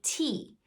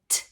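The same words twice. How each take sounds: First: The letter name, with a long vowel. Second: A short bare consonant sound with no vowel. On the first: The speaker calls it wrong. "I don't want to hear them say t" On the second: The speaker calls it right. "what's the first sound in tiger? I want to hear them say t"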